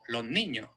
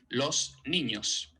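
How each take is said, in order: First: The s at the end of los is not pronounced. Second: The s at the end of los is fully pronounced. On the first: "no pronunciar la S en absoluto" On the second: "pongo el alófono S"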